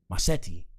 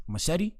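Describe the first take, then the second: First: "Machete" in an island accent, broad "mah-SHEH-tee". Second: Said in the usual way. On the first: Shown as a demonstration. Host showing the island accent for "Machete". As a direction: say "Machete" the island way, open first vowel and lower. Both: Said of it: "How do you say that in the accent?".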